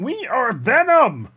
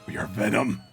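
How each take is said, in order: First: It is said in an imitated Kermit voice. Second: It is said in the speaker's normal voice.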